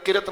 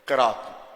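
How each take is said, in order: First: The middle vowel is short. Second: The middle vowel is long. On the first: The speaker calls it wrong. "लोग कहते किरत किरत किरत नहीं होता" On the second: The speaker calls it right. "ये किरात"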